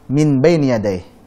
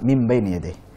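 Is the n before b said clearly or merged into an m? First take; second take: clear; merged. First: The n is said separately and clearly before b. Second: The n merges into an m sound before b. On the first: It is possible but heavy to say. The speaker calls it wrong. "bisa saja tapi berat" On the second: It is the easy, light way to say it. The speaker calls it right. "Maka yang mudah bagaimana?"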